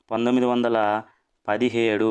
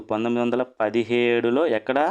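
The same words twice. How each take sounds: First: పంతొమ్మిది వందల then a pause, then పదిహేడు set apart; spaced out for memory. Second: Said in the usual way. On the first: Shown as a demonstration. Teacher spacing out పంతొమ్మిది వందల ... పదిహేడు for students to memorise. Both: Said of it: "phonic sound ద్వారా గుర్తుంచుకోండి".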